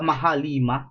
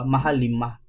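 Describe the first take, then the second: First: The two words are run together as one. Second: The two words are kept apart, with lima clear. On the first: The speaker calls it wrong. "naiik ako sa mahalima" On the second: The speaker calls it right. "Parang parang yun yung tama pag-pronounce nun"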